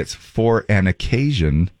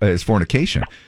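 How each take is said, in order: First: It is said slowly, words apart. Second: It is said fast, run together.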